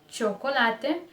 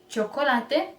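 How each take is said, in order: Both takes have the same delivery.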